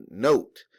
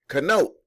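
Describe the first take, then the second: First: "Note" said plainly as note; a plain "Note", no k sound; reading note. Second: "Connote" read as ka-note, k sounded; "Connote" with the K said aloud; sounding the silent k. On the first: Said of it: "He said". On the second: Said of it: "and he was like". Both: Retold or imitated.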